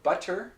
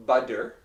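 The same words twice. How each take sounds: First: "butter" with a crisp, released T; super clear T. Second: "butter" as "budder", with full D. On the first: Teacher showing the clear version, "butter" with hard T. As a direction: articulate the T in "butter" fully. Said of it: "super clear pronunciation for butter". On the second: Teacher showing the next version, "butter" with D. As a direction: say a firm D inside "butter". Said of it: "and then we have butter". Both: Shown as a demonstration.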